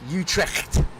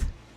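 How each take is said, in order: First: The word is said with a harder, harsher sound. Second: The word is said with a softer sound. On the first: "there's a wee bit more of a harder behind it" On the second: "I thought it was"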